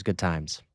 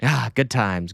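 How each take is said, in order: First: Sarcastic quiet echo. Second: Said in the usual way. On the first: Acted. Repeats it lower and quieter.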